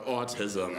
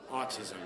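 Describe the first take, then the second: First: Low, droning imitation of a crowd; audience chorus. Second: Said in the usual way. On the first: Comic mimicking the audience's answer, crowd-like drone. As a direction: say it like a whole audience intoning it. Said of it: "hear an audience just go".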